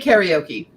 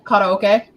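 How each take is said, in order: First: It is pronounced the English way. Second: It is pronounced the Japanese way. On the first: "Like I will say karaoke" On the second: "I know it's correctly karaoke"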